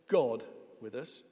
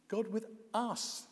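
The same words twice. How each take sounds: First: The stress falls on the word God. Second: The stress falls on the word us. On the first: It is God himself who is present. "Yes, God himself" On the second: God is present for people as they are. "Yes, us as we are, even you"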